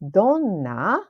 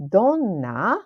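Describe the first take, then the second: First: The n sound is held long and emphasized. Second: The same.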